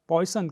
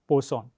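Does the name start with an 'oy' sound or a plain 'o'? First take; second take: oy; o. First: The first syllable has an 'oy' sound. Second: The first syllable has a plain 'o' sound. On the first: The speaker calls it wrong. "इसको बहुत सारे लोग मिस pronounce करते हैं, जैसे पॉइसन कहते हैं" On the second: The speaker calls it right. "Actual pronunciation इसका है पोसॉन"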